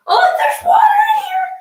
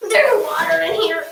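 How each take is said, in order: First: High shocked cry; shocked shout. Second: Said in the usual way. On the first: Real, not acted. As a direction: yell it in sudden alarm. Just fell into wet tub.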